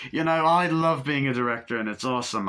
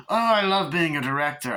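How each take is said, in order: First: Lightly voiced chirpy director, a touch higher; breezy mock film director, only slightly put on; a hint of a luvvie director; Eric Idle impression. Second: Higher, louder, gushing director voice; theatrical luvvie director, pitched up and louder; Eddie Izzard impression. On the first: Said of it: "my impression of the director sounds like Eric Idle". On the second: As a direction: ham up the delighted director. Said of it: "that sounds more like ... Eddie Izzard".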